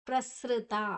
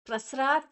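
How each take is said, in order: First: The middle syllable sounds like 'sri'. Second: The middle syllable sounds like 'sra'. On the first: The speaker calls it right. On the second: The speaker calls it wrong.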